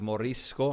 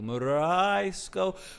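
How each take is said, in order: First: The name is said at a normal length. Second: The name is stretched out a lot. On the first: "I'm probably pronouncing that incorrectly" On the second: "unless I extend it a lot"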